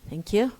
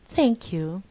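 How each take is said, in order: First: It is said casually and offhand. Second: It is said in a formal, careful way. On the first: The speaker is not really grateful. "it's not formal" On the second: The speaker is sincerely grateful. "This is formal"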